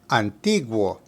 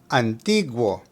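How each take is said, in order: No difference in how they are said.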